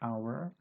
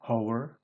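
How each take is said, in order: First: The word begins with a vowel sound. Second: The word begins with an h sound. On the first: The speaker calls it right. "tapi hour" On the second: The speaker calls it wrong. "bukan hour begitu"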